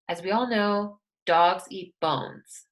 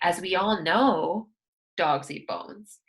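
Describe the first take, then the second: First: The opening phrase is said plainly, without emphasis. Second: The opening phrase is said with strong emphasis. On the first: "We don't really emphasize that" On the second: "Unless you wanted to say"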